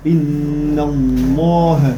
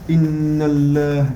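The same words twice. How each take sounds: First: The L in Allah sounds heavy and emphatic. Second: The L in Allah sounds light and thin. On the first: The speaker calls it right. "pour le mot Allah que le lem il devient emphatique" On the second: The speaker calls it wrong. "on va pas dire inna Allah"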